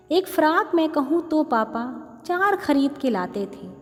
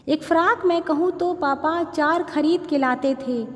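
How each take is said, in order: Both takes have the same delivery.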